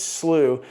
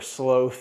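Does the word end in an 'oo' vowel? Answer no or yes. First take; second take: yes; no. First: The word ends in an 'oo' vowel. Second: The word ends in a consonant sound. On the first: The speaker calls it right. "It's slew" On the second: The speaker calls it wrong. "Some people call it sloth"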